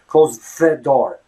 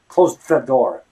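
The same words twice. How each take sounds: The two takes are said the same way.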